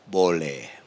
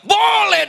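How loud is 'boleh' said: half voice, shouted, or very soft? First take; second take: half voice; shouted. First: The word is said at half volume. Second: The word is shouted loudly. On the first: The request is fine, but with less enthusiasm. "Saya setengah suara" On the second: The request is obviously fine. "Langsung saya teriak"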